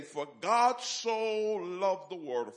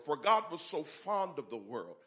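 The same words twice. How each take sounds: First: Scripture quote. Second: Said in the usual way. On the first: Shown as a demonstration. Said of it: "let me say it again". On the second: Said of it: "in my own vernacular".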